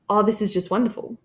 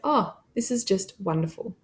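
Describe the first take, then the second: First: It runs on with no pause after oh. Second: There is a brief pause after oh. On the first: The speaker calls it wrong. "So we wouldn't say" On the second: The speaker calls it right. "So we're having that brief pause"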